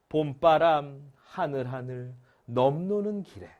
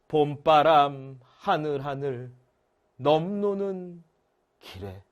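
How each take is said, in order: First: The phrase flows in three smooth rhythmic groups. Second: The phrase is broken up with an extra mid pause. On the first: The speaker calls it right. "이게 훨씬 더 리듬감 있게 느껴져야 될 텐데요" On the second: The speaker calls it wrong. "이거 중간에 끊어 읽을 수 있잖아요. 이게 좀 이상해. 느낌이 달라"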